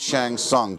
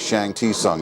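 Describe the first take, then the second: First: The name is said in two syllables. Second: The name is said in three syllables. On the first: This is the official name. "Yes, I know, it's Shang Tsung" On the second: This nods to an old behind-the-scenes video. "I like to say Shang Ti Sung"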